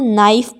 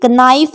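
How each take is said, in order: First: The word begins with an n sound. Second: The word begins with a k sound. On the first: The speaker calls it right. "इसको नाइफ पढ़ते हैं, क्योंकि के इनमें silent होता है" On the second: The speaker calls it wrong. "नाइफ नहीं पढ़ते हैं"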